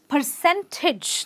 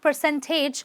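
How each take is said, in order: First: The last syllable has a short 'ih' vowel. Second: The last syllable has a full 'ay' vowel. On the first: The speaker calls it right. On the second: The speaker calls it wrong.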